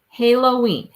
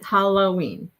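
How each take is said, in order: First: The first vowel sounds like in halo. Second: The first vowel sounds like in holographic. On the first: "Halo, ha, Halloween" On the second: "Like more like holographic"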